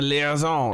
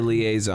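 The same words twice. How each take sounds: First: The word is said with a fancy French-style pronunciation. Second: The word is said with a plain American pronunciation. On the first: The speaker calls it wrong. "I don't think that's how you say it when you're from America" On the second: The speaker calls it right. "You say liaison"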